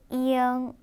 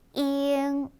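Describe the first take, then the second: First: A slight glide comes before the nasal ending. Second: It goes straight from 'i' into the nasal. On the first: The speaker calls it right. "살짝 이 발음이 들어가서 이응, 이응 이렇게 발음하시면 좀 더 예쁜 발음" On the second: The speaker calls it wrong. "그냥 잉이라고 발음하는 것보다"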